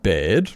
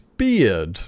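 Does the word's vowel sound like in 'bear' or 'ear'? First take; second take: bear; ear. First: The vowel sounds like the one in 'bear'. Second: The vowel sounds like the one in 'ear'. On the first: The speaker calls it wrong. "Put a D on the end of bear. It's not bared" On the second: The speaker calls it right. "It's beard"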